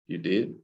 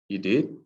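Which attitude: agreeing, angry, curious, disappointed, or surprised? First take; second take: disappointed; curious. First: It sounds disappointed. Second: It sounds curious and questioning. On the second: "When you're curious"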